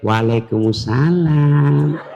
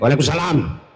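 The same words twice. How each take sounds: First: The voice is soft, sweet and melodious. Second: The voice is firm and not melodious.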